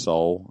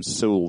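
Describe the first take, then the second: First: Said in the usual way. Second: "Soule" said with an oo vowel, like "Sool"; alternative pronunciation. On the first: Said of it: "I did hear, hear someone call him Soule". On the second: Shown as a demonstration. Co-host quoting another person's way of saying the name, "Soule" as "Sool". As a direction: rhyme "Soule" with cool. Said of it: "hear someone call him Soule the other day".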